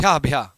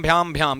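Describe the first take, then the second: First: भ्या said with no final m, just bhyaa; सही वाला भ्या, बिना म के; corrected take. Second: भ्याम said with a final m, bhyaam; wrongly ending भ्याम on a clear m sound; mistake वाला भ्याम, अंत में म के साथ; wrong take. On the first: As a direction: fix it to a clean open भ्या with no m. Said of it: "अरे गलत कर दिया जी". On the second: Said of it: "sorry, माफ कीजिएगा". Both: Shown as a demonstration.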